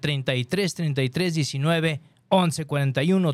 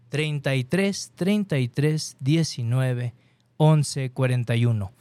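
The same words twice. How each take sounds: First: The number is said at normal speed. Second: The number is said slowly.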